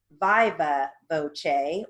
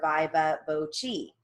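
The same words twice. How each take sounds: First: "viva" as VYE-va, "voce" ending in -chay; alternative pronunciation. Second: "viva" as VYE-va, "voce" ending in -chee; second alternative pronunciation. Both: Shown as a demonstration. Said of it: "it also can be pronounced".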